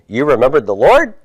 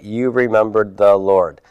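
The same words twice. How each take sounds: First: The voice rises at the end. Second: The voice falls at the end. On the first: It asks a yes-no question. "raise the intonation" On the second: It states a fact. "Statement of fact"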